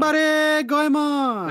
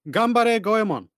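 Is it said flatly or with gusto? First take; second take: with gusto; flatly. First: It is said loudly, with lots of energy. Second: It is said flatly, with little energy.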